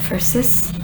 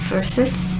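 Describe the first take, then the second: No difference in how they are said.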